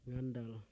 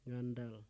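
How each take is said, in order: No difference in how they are said.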